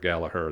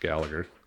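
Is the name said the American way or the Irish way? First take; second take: Irish; American. First: The name is said with an Irish pronunciation. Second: The name is said with an American pronunciation.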